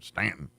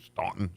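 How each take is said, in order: First: The first vowel is a short 'a' sound. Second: The first vowel is the 'aw' sound. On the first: It is the way locals say it. The speaker calls it right. "We'll take your U out, and then it'll be Stanton" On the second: The speaker is not from the area. The speaker calls it wrong. "It looks like Staunton ... It ain't Staunton"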